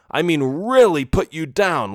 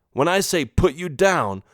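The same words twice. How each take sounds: First: "really" leaned on and stretched; stress on really. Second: Said in the usual way. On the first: Acted. Father warning son, weighing "really" heavily. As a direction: press hard on "really".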